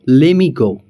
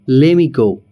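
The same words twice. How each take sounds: First: Let me is merged into one word, lemme. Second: Let me is merged into one word, lemme.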